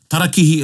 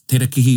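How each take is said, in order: First: The first vowel sounds like 'a'. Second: The first vowel sounds like 'e'. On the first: The speaker calls it right. "is the right word" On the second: The speaker calls it wrong. "has been normalised in our language. So it's wrong"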